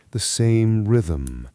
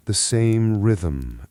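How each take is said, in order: Both takes have the same delivery.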